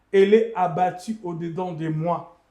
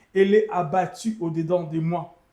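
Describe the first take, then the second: Both takes have the same delivery.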